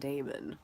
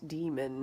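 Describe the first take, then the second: First: The first vowel sounds like 'ay'. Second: The first vowel sounds like 'ee'. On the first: This is how the speaker was taught to read it. "not Damon" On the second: This is how the author says it. "Philip Pullman pronounces it demon"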